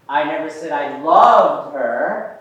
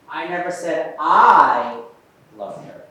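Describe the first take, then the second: First: The stress falls on the word loved. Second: The stress falls on the first word I. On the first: A weaker feeling was claimed instead. "I said I liked her" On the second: Someone else said it. "Let's try the I"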